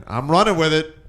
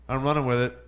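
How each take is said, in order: First: Emphatic. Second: Said in the usual way. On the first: Shown as a demonstration.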